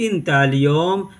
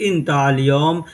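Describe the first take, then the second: No difference in how they are said.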